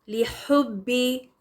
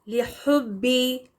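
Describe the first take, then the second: Both takes have the same delivery.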